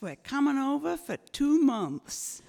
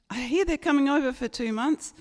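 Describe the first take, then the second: First: Imitated American in-laws, pitched high; higher-pitched mock American accent. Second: Imitated Australian parents, higher and quicker; brisk, higher mock Australian accent. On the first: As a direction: announce it in a put-on American accent. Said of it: "it's the in-laws from America". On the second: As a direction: relay the news in a put-on Australian accent. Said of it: "forgotten how to speak Australian".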